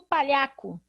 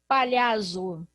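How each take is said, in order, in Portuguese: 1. A consoante do meio é um som de k. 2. A consoante do meio é um som de z. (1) "Ninguém fala assim" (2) "Não é assim que a gente fala"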